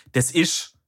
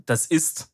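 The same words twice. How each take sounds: First: "das ist" as dialect "des isch"; southern dialect. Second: Said in the usual way. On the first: Shown as a demonstration. Southerner showing his own dialect form, southern des isch. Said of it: "dass es kein Hochdeutsch ist".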